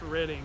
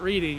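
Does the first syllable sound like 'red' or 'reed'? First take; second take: red; reed. First: The first syllable rhymes with 'red'. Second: The first syllable rhymes with 'reed'. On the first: The speaker calls it right. "it's actually pronounced redding" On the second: The speaker calls it wrong. "It's not reading"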